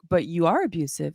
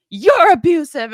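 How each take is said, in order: First: Said in the usual way. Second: High, loud angry retort; going off. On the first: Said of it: "I was like". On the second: Retold or imitated. Ex turning the accusation back on her, going off. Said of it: "just starts going off on me".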